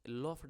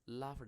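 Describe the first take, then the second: First: The vowel is a rounded 'aw' sound. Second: The vowel is an open 'aa' sound. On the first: The speaker calls it wrong. "लॉफ्ड नहीं है" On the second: The speaker calls it right. "लाफ्ड है ये"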